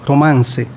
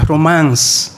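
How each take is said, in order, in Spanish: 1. La palabra se pronuncia con pronunciación española. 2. La palabra se pronuncia con pronunciación inglesa. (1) "lo llamaremos romance en español" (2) "En inglés se pronuncia romance"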